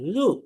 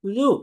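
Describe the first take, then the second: First: It starts with a soft dh, tongue touching teeth. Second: It starts with a soft dh, tongue touching teeth.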